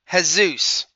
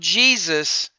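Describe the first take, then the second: First: The name is said the Spanish way. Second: The name is said the English way.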